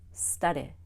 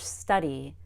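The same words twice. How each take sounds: First: The final vowel is clipped and incomplete. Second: The final vowel is a full long E. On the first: The speaker calls it wrong. "That's incomplete" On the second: The speaker calls it right. "It still needs to be a long E"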